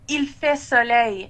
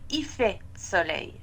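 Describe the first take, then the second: First: The L of 'il' is clearly pronounced. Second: The L of 'il' is dropped in quick speech. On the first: "vous pouvez dire" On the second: "quand on parle rapidement, on prononce pas le L de il"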